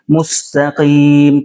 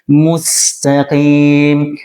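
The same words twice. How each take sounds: First: The s sounds heavy and thick. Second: The s sounds light and thin. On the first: The speaker calls it wrong. "bukan siratal mustaqim" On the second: The speaker calls it right. "tapi mustaqim"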